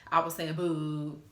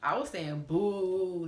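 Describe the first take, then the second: First: Slow, emphatic "boo" as in sweetheart; boo stretched. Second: Slow, drawn-out "boo" said the loving way; boo stretched. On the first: Insisting to viewers she meant "boo", slow and firm. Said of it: "you my boo". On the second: Telling him she meant "boo" as in babe, drawn out. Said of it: "not boo". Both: Shown as a demonstration.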